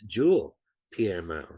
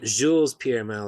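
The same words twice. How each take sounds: First: The s at the end of Jules is silent. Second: The s at the end of Jules is pronounced. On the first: The speaker calls it right. "they didn't pronounce the S" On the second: The speaker calls it wrong. "It's not Jules Pierre Mao, like I've always been saying"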